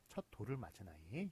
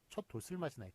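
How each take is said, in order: First: An l sound links into the particle. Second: An s sound links into the particle. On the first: The speaker calls it right. "이런 식으로 발음을 하니까" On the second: The speaker calls it wrong. "이렇게 발음하는 사람은 아무도 없지 않습니까?"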